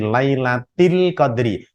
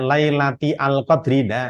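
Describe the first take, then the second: First: The article merges into the previous word. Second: The article is said separately with its own vowel. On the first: The speaker calls it right. "hamzah wasol ... hilang tidak terbaca" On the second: The speaker calls it wrong.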